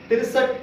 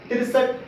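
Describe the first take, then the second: No difference in how they are said.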